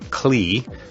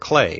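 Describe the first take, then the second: First: The name is pronounced just as it is spelled. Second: The name is pronounced differently from its spelling. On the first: The speaker calls it wrong. "you may be pronouncing his name Klee, K L E E, just as it's spelled" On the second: The speaker calls it right. "Klee is a proper pronunciation"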